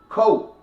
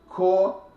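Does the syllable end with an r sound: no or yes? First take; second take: no; yes. First: The syllable ends without an r sound. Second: The syllable ends with an r sound. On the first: The speaker calls it right. "say cooperation" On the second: The speaker calls it wrong. "Don't say core"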